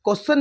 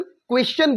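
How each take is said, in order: First: क्वेश्चन said as "kossan", with no w and a plain s sound; wrong pronunciation. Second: क्वेश्चन said as "kwes-chan", with a clear w and ch; correct pronunciation. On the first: Teacher showing students the wrong way to say क्वेश्चन, said as "kossan". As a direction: mispronounce क्वेश्चन as "kossan", the way learners get it wrong. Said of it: "wrong pronunciation". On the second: Teacher modelling the right way to say क्वेश्चन, as "kwes-chan". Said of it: "क्वेश्चन बोलते हैं". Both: Shown as a demonstration.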